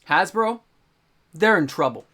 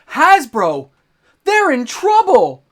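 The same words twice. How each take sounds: First: It is said in a plain, undramatic way. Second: It is said in a dramatic, heightened way.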